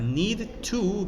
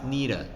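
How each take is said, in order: First: Both words are said fully and separately. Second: The words blend together into one reduced form. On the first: The speech is more formal. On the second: The speech is less formal.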